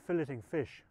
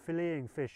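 First: The word is said with a British pronunciation. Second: The word is said with an American pronunciation.

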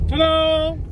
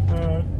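First: It is said with more enthusiasm. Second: It is said flatly, without enthusiasm.

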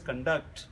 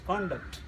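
First: The stress is on the second syllable. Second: The stress is on the first syllable. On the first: It is used as a verb. "As a verb, it is pronounced as conduct" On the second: It is used as a noun. "If you say noun as a noun, it's pronounced as conduct"

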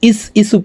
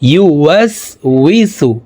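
First: The middle syllable is blurred into a short 'is'. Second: Every syllable, including 'wi', is pronounced clearly. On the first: The speaker calls it wrong. "ইস ইসু পড়ে থাকি। ইস ইসু বলা যাবে না" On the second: The speaker calls it right. "বলতে হবে এইভাবে, দেখুন"

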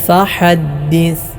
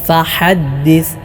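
No difference in how they are said.

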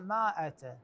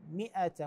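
First: The first vowel is a long a. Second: The first vowel is a short i. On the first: The speaker calls it wrong. "مائة غير صحيح" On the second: The speaker calls it right. "الصحيح مئة"

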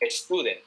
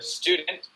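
First: A vowel sound is added before the s. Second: It begins directly with the s sound. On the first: The speaker calls it wrong. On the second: The speaker calls it right.

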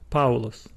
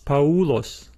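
First: The stress falls on the a of the diphthong. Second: The stress falls on the u of the diphthong. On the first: The speaker calls it right. "we still say Paulos" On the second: The speaker calls it wrong. "we do not pronounce this word as Paulos"

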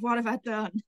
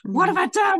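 First: The voice sounds dismayed and regretful. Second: The voice sounds pleased and satisfied. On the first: The speaker regrets what she did. "Oh my God" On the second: The speaker is happy with what she did. "depending on what's happening, I say it differently"

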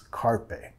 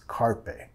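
First: The r is an English r, as in car. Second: The same.

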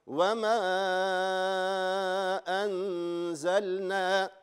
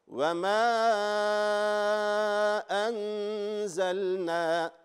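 The two takes are said the same way.

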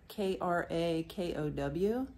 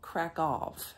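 First: The word ends without an f or v sound. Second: The word ends with an f or v sound. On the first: This is the American way of saying it. "in my American English, I say Krakow" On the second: This is the local way of saying it. "the locals call it Krakow, like with an F or a V at the end"

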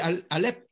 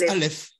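First: The name ends with a p sound. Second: The name ends with an f sound. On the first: This is the usual everyday form of the name. "On dit Alep" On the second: This is the original form of the name. "mais ça se prononce Aleph"

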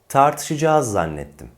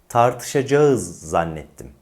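First: The verb is pronounced in reduced colloquial form. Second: The verb is pronounced fully, as spelled. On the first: The speaker calls it right. "Doğru telaffuz bu" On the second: The speaker calls it wrong. "Bir de yanlışı kullanalım"

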